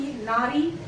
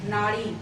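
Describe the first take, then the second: First: नारी with a light tapped र; plain r sound. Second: नाड़ी with a curled-tongue ड़; retroflex flap. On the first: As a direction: say नारी with a simple r, not ड़. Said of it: "सुनने में बिल्कुल समान प्रतीत". (नारी में साधारण र का उच्चारण) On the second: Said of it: "मैंने एक उच्चारण और किया". (नाड़ी में मूर्धन्य ड़ का उच्चारण) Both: Shown as a demonstration.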